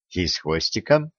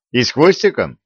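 First: "И с хвостиком" lower and softer, as a confirming echo; low confirmation. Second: "И с хвостиком?" pitched up as a query; follow-up question. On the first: Widow confirming the demons have tails, subdued confirmation. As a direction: confirm "И с хвостиком" quietly, pitched down. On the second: Young man quizzing the widow on demons' looks, questioning. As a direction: ask "И с хвостиком?" in a higher voice. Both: A narrator's reading.

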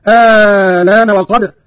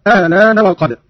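First: الآن opening on a long held "aa"; second hamza turned into a prolonged aa in الآن; long madd. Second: الآن with a short eased second hamza, "a-alaana"; no long stretch on the start of الآن; softened, shortened hamza. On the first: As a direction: stretch the first vowel of الآن very long, loud and slow. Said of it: "بإبدال الهمزة الثانية مع المد الطويل". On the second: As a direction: keep the opening of الآن short and gliding. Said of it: "وله تسهيلها مع القصر". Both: Shown as a demonstration.

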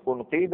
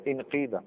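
First: انقيد with initial "u": unqiida; damma on hamza. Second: انقيد with initial "i": inqiida; kasra on hamza. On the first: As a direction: begin انقيد as "un-". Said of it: "دائما الهمزه الوسط تتبع حركه". (انقيد بضم أولها) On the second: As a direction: begin انقيد as "in-". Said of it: "اذا نكسر همزه الوصل". (انقيد بكسر أولها) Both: Shown as a demonstration.

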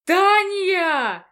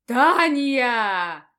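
First: Yelling. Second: Thundering shout. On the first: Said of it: "заорал декан". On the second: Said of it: "Голос грянул, как гром с поднебесья". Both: Acted.

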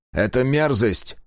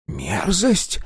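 First: Slow, firm, disgusted мерзость; grim disgust. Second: High, rising, offended мерзость; indignant echo. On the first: Sega calling the creature an abomination, slow and grim. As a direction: spit out мерзость slowly with disgust. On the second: Engineer frowning at Sega's word, high and offended. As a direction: throw мерзость back, high and affronted. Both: A narrator's reading.

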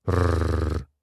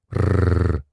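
First: Low rumbling growl; wolf growl. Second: Wolf growl. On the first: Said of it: "прорычала серая волчица". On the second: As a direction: growl like a wolf baring teeth. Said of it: "волчица оскалилась". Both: Acted.

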